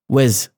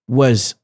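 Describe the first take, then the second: No difference in how they are said.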